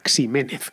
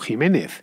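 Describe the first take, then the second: First: The name begins with a KS sound. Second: The name begins with a throaty J sound. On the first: The speaker calls it wrong. "que es lo que leeríamos actualmente con la fonética actual" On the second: The speaker calls it right. "se tiene que leer como, como Jiménez"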